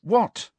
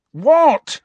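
First: High, short impatient question; impatient retort. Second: Loud, high, angry question; exasperated shout. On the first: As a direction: ask it impatiently, voice raised in pitch. Harry snaps back, then repeats louder. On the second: Harry repeats it much louder. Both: A narrator's reading.

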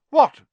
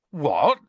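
First: Short, high, loud shout, falling; calling back. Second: Louder, higher startled question, rising; taken aback. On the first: Angelina answering Fred from afar, calling back. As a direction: fling it back across the room. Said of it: "she called back". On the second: Ron hearing Fred's date, taken aback. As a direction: blurt it in surprise. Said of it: "taken aback". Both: A narrator's reading.

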